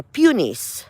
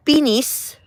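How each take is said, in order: First: Peonies said slowly as PYOO-nees; second pronunciation. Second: Peonies said as PEE-nees, quick and a little higher; first pronunciation. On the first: Gardener offering the other way to say peonies. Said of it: "so it's peonies". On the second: Gardener offering one way to say peonies. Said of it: "or peonies". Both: Shown as a demonstration.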